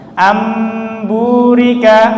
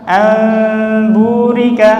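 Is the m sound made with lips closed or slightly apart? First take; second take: closed; slightly apart. First: The lips close and press firmly on the m. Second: The lips leave a thin gap on the m. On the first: "yang pertama"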